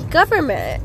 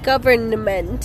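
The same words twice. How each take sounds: First: The N in the middle is dropped. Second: The N in the middle is clearly pronounced. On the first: "So it just sounds like there isn't an N" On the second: "nobody says government"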